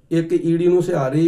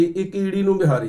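First: ਸਿਹਾਰੀ said with a plain s start and a rising end; first reading, sihari. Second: ਬਿਹਾਰੀ said with a b start and a falling end; second reading, bihari. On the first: Preacher showing the congregation the first way to read it. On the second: Preacher showing the congregation the second way to read it. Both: Shown as a demonstration. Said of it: "ਦੋ ਪਾਠ ਇਸ ਤਰ੍ਹਾਂ ਦੇ ਬੋਲਣੇ ਸੀ".

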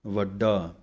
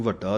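First: ਵੱਡਾ with a clear unaspirated double d; correct pronunciation. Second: ਵੱਡਾ with the middle consonant turned to the ਢੱਡੇ sound; quick ਵੱਡਾ said as vaddha; wrong pronunciation. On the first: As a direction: say ਵੱਡਾ as vad-daa. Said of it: "ਇਹਨੂੰ ਵੱਡਾ ਨਹੀਂ ਕਹਿਣਾ". (ਵੱਡਾ ਵਿੱਚ ਸਾਫ਼ ਡੱਡਾ) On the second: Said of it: "ਫਿਰ ਢੱਡੇ ਦੀ ਆਵਾਜ਼ ਆਵੇਗੀ". (ਵੱਡਾ ਵਿੱਚ ਢੱਡੇ ਦੀ ਆਵਾਜ਼) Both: Shown as a demonstration.

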